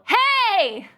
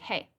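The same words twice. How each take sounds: First: It is said very loudly, like real trouble. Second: It is said quietly, like casual chat.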